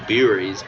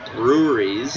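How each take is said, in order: First: The middle 'rew' syllable is left out. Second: The middle 'rew' syllable is fully said. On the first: The speaker calls it wrong. "I always say beeries" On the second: The speaker calls it right. "it's breweries"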